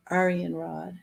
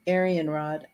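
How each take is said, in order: First: Aryan said with an "ah" first vowel; "Aryan Rod" tentatively as AR-ee-an rod; trying a pronunciation. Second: Aryan said lower, with an "air" first vowel; "Aryan Rod" tentatively as AIR-ee-an rod; alternative pronunciation. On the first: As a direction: open "Aryan" like "ar", softly testing it. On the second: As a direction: open "Aryan" like "air", dropping in pitch. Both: Shown as a demonstration. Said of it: "do not know how to pronounce this".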